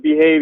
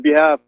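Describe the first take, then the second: First: Said in the usual way. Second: "behalf" said in place of "behave"; imitated mispronunciation. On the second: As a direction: mimic the slip, ending "behalf" on an f sound. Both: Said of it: "he mispronounced a lot of the words".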